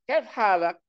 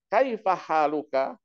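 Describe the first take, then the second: First: The final vowel endings are dropped. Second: The final vowel endings are fully pronounced. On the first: This is the everyday colloquial form native speakers use. "dia katakan apa?" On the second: This is the formal standard form learned from grammar.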